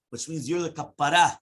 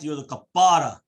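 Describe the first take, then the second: First: Said in the usual way. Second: "You're the kapara" louder, falling on "kapara"; emphatic repeat. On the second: Shown as a demonstration. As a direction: hammer the word "kapara" home.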